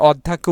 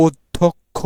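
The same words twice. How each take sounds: First: অধ্যাক্ষ with a long open "া" in the middle; wrong pronunciation. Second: অধ্যক্ষ said slowly with a short vowel before "ক্ষ"; correct pronunciation. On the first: Teacher demonstrates how students wrongly pronounce অধ্যাক্ষ. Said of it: "এটা আসলে আমরা ভুল উচ্চারণ করি". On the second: Teacher gives students the correct slow pronunciation of অধ্যক্ষ. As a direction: say অধ্যক্ষ carefully and slowly, with no long "া". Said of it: "সঠিক উচ্চারণ হচ্ছে আসলে". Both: Shown as a demonstration.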